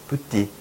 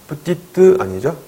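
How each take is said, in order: First: Petite with the final t only lightly sounded. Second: Petite with the final te fully said, slow and loud; wrong pronunciation. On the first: Teacher showing learners the correct petite, light final t. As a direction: say petite with a barely touched final t. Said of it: "살짝 발음돼요". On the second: Teacher demonstrating the wrong petite to students, overpronounced. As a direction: stretch out petite as a wrong full "petite". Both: Shown as a demonstration.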